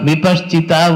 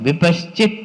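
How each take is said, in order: First: The word ends with an added vowel sound. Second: The word ends on a bare consonant. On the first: The speaker calls it wrong. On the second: The speaker calls it right.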